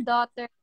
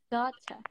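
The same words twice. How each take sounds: First: Said in the usual way. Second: "Daughter" in a British accent, ending in an open "ah"; softly spoken British "Daughter", like "daw-tcha". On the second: Shown as a demonstration. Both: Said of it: "British accent ng daughter".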